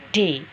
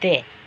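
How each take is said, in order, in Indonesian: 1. Hurufnya diucapkan dengan d yang keras dan tegas. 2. Hurufnya diucapkan dengan d yang lunak dan lembut. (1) "lebih tegas, lebih keras" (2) "tidak terlalu keras. Jadi itu lebih lunak"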